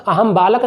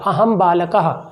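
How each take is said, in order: First: "बालक" ending on k, no breathy ha; wrong bare ending. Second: "बालकः" ending in an echoed "ha"; correct visarga ending. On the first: Teacher showing students the wrong form, "बालक" without its ha ending. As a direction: drop the final visarga from "बालक". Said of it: "वो गलत हो जाएगा". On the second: Teacher correcting students, "बालकः" with a clear final ha. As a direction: sound the visarga fully, "बालकः" as baalakaha. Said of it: "अहम बालक नहीं बोलेंगे". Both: Shown as a demonstration.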